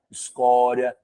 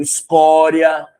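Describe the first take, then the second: First: Said in the usual way. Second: "escória" drawn out slow and loud; "escória" slow and loud, then plain; stretched word. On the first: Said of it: "second take". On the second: Shown as a demonstration. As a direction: linger on "escória" with weight. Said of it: "repeats word plainly".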